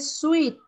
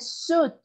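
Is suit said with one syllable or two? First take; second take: two; one. First: The i is sounded, giving two syllables. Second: The i is silent, giving one syllable. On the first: The speaker calls it wrong. "no se dice suit" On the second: The speaker calls it right. "Se dice suit. La I desaparece"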